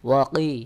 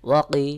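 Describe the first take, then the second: No difference in how they are said.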